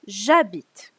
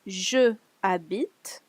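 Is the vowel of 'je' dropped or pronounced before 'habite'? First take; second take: dropped; pronounced. First: The e of je is dropped and joined. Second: The e of je is pronounced separately. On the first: The speaker calls it right. "you'll say j'habite" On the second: The speaker calls it wrong. "you don't say je habite"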